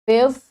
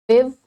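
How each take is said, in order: No difference in how they are said.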